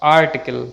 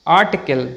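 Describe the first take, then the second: First: Article with an audible r before t; slow down and sound the r in article. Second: Article as "aa-tickle"; silent r. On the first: Teacher shows the mistake, r sounded. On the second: Teacher models the correct word, r silent. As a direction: drop the r in Article. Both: Shown as a demonstration.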